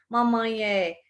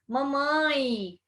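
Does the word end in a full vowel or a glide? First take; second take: full vowel; glide. First: The final E is a separate full vowel. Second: The final E is a short I glide. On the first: The speaker calls it wrong. "você não diz mamãe é" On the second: The speaker calls it right. "você diz mamãe. Esse é tem som de I"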